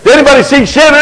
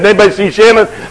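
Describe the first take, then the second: First: The question is spoken loudly with a raised voice. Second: The question is spoken softly and quietly. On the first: "I began to raise my voice" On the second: "rather softly at first"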